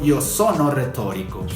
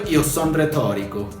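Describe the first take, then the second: First: The verb is said in full, with its final vowel. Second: The verb is shortened, without its final vowel. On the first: "No te digo" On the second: "no te pronuncien la última O y te digan son"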